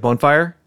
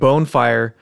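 First: It is said quickly, blended into one word. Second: It is said slowly as two separate words. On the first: "you just say it really fast like bonfire" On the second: "if you're saying bone fire"

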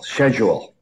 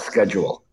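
First: It is said the Canadian way. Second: It is said the American way.

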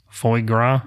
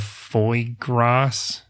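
First: The word gras ends without any S sound. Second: The word gras ends with an audible S sound. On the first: The speaker calls it right. "Don't say the S" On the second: The speaker calls it wrong. "I'm going to butcher this"

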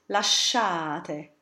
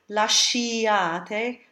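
First: The sh leads straight into the 'a' vowel. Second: An 'ee' vowel is sounded after the sh. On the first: The speaker calls it right. "the letter I in this spelling will not be pronounced" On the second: The speaker calls it wrong. "we don't say lasciate"

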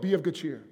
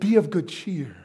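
First: It is said in a stern, unsmiling way. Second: It is said warmly with a big smile. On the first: The speaker calls it wrong. "He didn't go like" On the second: The speaker calls it right. "Huge smile"

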